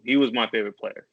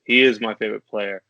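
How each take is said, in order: First: "was" stressed, past tense weighed. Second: "is" pressed, corrected to present; stress on is. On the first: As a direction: lean on "was" as in no longer here. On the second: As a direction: hit "is" firmly, insisting still now. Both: Real, not acted.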